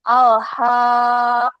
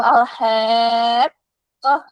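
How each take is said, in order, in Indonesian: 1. Vokalnya adalah 'a' yang murni dan terbuka. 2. Vokalnya agak condong ke bunyi 'e'. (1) "Tetap harus a bunyinya ya" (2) "ada e-nya begitu ya"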